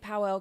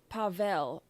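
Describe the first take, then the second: First: The middle consonant is a w sound. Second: The middle consonant is a v sound. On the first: This is the speaker's own pronunciation of the name. "I guess I say Powell because it's a W" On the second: This is how others pronounce the name. "they say it pa- Pavel"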